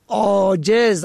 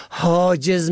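First: Said in the usual way. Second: حاجز starting on a breathed h; the wrong reading حاجز, h replacing opening ain; misread with h. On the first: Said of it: "عین الف جیم ز". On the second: Shown as a demonstration. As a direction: say حاجز as haa-jez.

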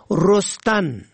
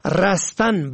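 First: رستن said "rostan"; rounded o in first syllable of رستن; zamma on first. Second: رستن said "rastan"; fatha on first. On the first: Teacher shows رستن for "growing", pronounced rostan. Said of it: "به ضم اول". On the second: Teacher shows رستن for "escaping", pronounced rastan. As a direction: open a in first syllable of رستن. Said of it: "به فتح اول". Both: Shown as a demonstration.

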